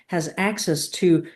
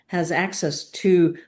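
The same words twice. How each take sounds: The two takes are said the same way.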